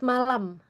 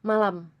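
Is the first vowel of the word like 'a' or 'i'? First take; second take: a; a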